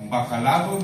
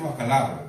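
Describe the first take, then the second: First: It is said in an affected, overly refined way. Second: It is said in a plain, ordinary way. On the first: The speaker calls it wrong. "bacalao no se dice" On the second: The speaker calls it right. "se dice bacalao"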